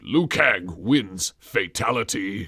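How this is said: It is mumbled indistinctly.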